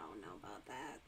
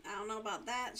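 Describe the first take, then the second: First: Much lower, much softer put-on voice. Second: Said in the usual way. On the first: Shown as a demonstration. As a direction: drop the voice way down and say it softly.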